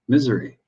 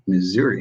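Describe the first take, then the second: First: The word ends sounding like misery. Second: The word does not end like misery. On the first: "like misery" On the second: "That's how I grew up saying that"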